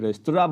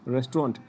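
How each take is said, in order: First: The word is said the French way. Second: The word is said the English way. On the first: "French में रेस्तरा बोलते हैं" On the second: "English में इसको बोलेंगे"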